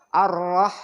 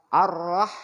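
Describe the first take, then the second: The two takes are said the same way.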